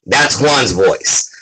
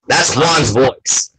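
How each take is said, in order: First: Said in the usual way. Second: Juan's voice. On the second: Shown as a demonstration. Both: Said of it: "that's not Juan Pool's voice".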